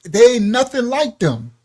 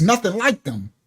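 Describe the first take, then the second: First: Emphatic quote. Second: Said in the usual way. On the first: Retold or imitated. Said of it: "it says". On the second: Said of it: "He says".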